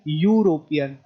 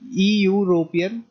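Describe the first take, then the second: First: The word begins with a 'yoo' sound. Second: The word begins with an 'ee' sound. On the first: The speaker calls it right. "हम सीधा यू से शुरू कर रहे हैं" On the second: The speaker calls it wrong. "ई यूरोपियन गलत होगा"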